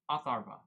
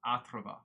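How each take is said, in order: First: Atharva with R right before V; loud, careful try at Atharva, no A after R; oddly stressed name. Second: Athrava with an extra A between R and V; misread name pronunciation. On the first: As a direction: say Atharva firmly as a-THAR-va. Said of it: "putting an emphasis on a weird part of the word". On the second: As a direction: say Athrava as ATH-ra-va. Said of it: "there's no A between the R and the V". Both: Real, not acted.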